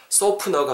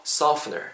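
First: "softener" as Korean "소프너", p for f; "softener" with a popped p instead of f; Korean-style softener. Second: "softener" with a true f and silent t; "softener" in English sounds, saf-ner. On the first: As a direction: say "softener" with Korean syllables, so-peu-neo. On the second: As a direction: blow the f in "softener" through teeth and lip. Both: Shown as a demonstration. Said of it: "softener가 아니고 softener".

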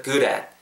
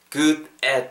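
First: "good at" joined with a tapped D; linked words. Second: Said in the usual way. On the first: Shown as a demonstration. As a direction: run "good at" together like "gu-rat". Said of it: "붙으면서". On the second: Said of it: "good at 붙으면서".

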